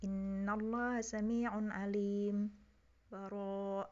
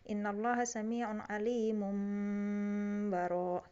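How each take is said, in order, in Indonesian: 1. Ada henti singkat tanpa napas sebelum kata terakhir. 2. Kata-katanya menyambung tanpa jeda sama sekali. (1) "lalu berhenti sejenak tanpa nafas" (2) "Itu kalau wasol"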